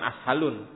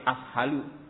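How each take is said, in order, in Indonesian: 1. Kata ini berakhir dengan bunyi n. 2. Kata ini berakhir dengan vokal, tidak ada n. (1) "salah. Bukan ashalun" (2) "tapi ashalu. Kan enggak ada alif lamnya"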